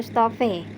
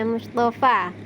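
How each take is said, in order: First: The final vowel is tilted toward e. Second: The final vowel is a clear open a. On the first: The speaker calls it wrong. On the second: The speaker calls it right. "tetap dibaca apa adanya tanpa imalah"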